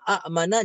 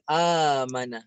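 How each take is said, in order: First: A glottal stop comes after a short first vowel. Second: The first vowel is drawn out long, without a stop. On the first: This is the original form, which is hard to say. "asalnya a mana" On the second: This is the eased form used in recitation. "jadi a mana"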